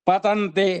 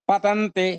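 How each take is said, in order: The two takes are said the same way.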